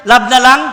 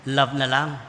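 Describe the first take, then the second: First: "Love na lang" shouted out much louder with a rise on "lang"; loud call to repeat. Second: Said in the usual way. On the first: Shown as a demonstration. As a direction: lead the congregation in calling "Love na lang". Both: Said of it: "Sabihin nga natin".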